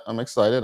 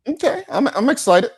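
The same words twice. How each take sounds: First: Said in the usual way. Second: Excited. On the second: Real, not acted. Host gushing about the show.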